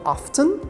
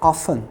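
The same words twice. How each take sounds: First: The T sound is pronounced in the middle. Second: The T sound is silent in the middle. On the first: "Algumas pessoas falam often" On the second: "como se não pronunciasse o T"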